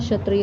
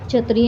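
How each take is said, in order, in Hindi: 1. पहले व्यंजन की ध्वनि 'sh' जैसी है। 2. पहले व्यंजन की ध्वनि 'chh' जैसी है। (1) "होता है" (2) "नहीं होता"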